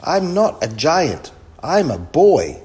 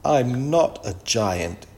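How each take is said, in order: First: Put-on loud, high boy's protest; shouted. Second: Put-on slow, understated upset boy; mildly tearful. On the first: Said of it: "shouted Kipper". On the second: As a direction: protest slowly, only a touch of tears. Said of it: "Kipper began to cry". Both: A narrator's reading.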